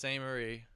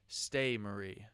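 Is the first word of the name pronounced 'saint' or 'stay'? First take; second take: saint; stay. First: The first word is pronounced 'saint' with an n. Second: The first word is pronounced 'stay' without an n. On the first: The speaker calls it right. "He says Saint Marie" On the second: The speaker calls it wrong. "I kept saying Stay Marie"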